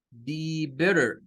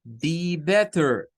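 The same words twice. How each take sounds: First: Slow "Be better" with a flapped T like R; "Be better" slowly, T as a quick R tap. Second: Slow "Be better" with a crisp T; "Be better" slowly, hard clear T. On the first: ("Be better" lento con la T como R) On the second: ("Be better" lento con T clara) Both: Shown as a demonstration. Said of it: "las tres con diferente pronunciación".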